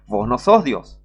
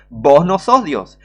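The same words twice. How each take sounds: First: Said in the usual way. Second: "Vos no sos Dios" louder and slower, stress on "sos"; slow emphatic rebuke. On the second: Shown as a demonstration. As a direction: hammer "sos" slowly and loudly. ("sos" remarcado, lento y más fuerte)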